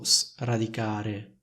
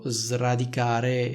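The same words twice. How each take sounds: First: The first s is voiceless, like an s. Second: The first s is voiced, like a z. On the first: The speaker calls it wrong. "non dico sradicare" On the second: The speaker calls it right. "io dico sradicare"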